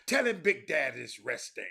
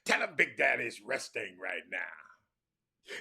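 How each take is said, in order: First: Loud hollered reply; Powell hollering back. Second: Slow, loud raspy whisper; slow theatrical stage whisper; Powell's whispered reply. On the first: Powell hollers down to the boy, loud. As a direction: holler it down the stairs like Big Daddy. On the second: Powell stage-whispers his answer down to the boy. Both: Retold or imitated. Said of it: "That's how he talk".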